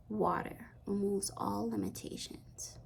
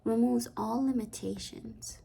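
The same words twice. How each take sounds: First: Hushed, breathy whisper, softer. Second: Said in the usual way. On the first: Acted. Reader to viewer, repeating the message in a hush. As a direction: whisper the word removes with a falling close.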